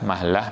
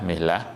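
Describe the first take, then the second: First: The vowel after the m is a. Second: The vowel after the m is i. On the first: "atau mahlah bisa" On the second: "atau dibaca mihlah juga boleh"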